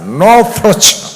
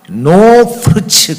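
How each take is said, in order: First: It has a strongly curled, English-like accent. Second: It has a plain Korean accent.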